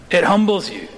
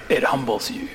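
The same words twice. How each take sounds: First: "It humbles you" said again, pitch lifted and leaning on "humbles"; emphatic repeat. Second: Said in the usual way. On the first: Shown as a demonstration. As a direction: hit "humbles" firmly the second time.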